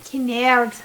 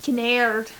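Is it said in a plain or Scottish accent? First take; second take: Scottish; plain. First: It is said in a put-on Scottish brogue. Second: It is said in a plain accent.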